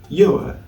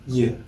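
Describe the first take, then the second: First: The word is said fully with a clear vowel. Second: The word is said quickly with a weak vowel. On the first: "in its strong form would be pronounced as your" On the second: "in its weak form it would be pronounced as y"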